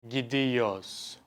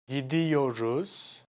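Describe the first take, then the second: First: The r sound in the middle is dropped. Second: The r sound in the middle is kept.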